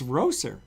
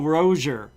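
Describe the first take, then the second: First: The s in the name sounds like s. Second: The s in the name sounds like z. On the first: The speaker calls it right. "It's not. It's Roser" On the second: The speaker calls it wrong. "a lot of people call him Michael Rozier, like R O Z I E R or S as a Z"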